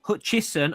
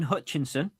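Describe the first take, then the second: First: "Hutchison" with no N before the S; Hutchison without the N. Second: "Hutchinson" with an extra N before the S. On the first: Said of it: "I do that every time". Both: Real, not acted.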